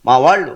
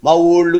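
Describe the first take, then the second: First: The second word has a clear 'aa' vowel. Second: The second word has an 'o' vowel. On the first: The speaker calls it right. "మా వాళ్ళు అనండి" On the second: The speaker calls it wrong. "ఈ ఓ ఎక్కడదే?"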